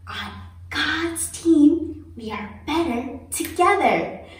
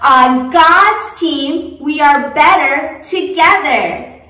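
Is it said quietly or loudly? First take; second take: quietly; loudly. First: It is said as quietly as possible. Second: It is said as loudly as possible.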